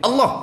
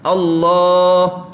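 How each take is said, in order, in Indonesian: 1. Vokal kedua dibaca pendek. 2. Vokal kedua dibaca panjang. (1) "kita pergi pendek" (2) "Tepat panjang"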